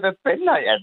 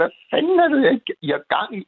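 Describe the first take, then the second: First: Raised, a retold half-shout at the cop; mock yell. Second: Angry shout. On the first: Caller retelling how he shouted at the cop, mild mock yell. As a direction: call it out, a bit angry. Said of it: "så råbte jeg". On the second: Retold or imitated. Caller at a police officer in the snow, angry shout. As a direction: bellow it out of the car window, furious. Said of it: "så jeg råbte".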